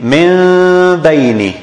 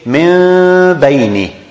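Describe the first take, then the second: Both takes have the same delivery.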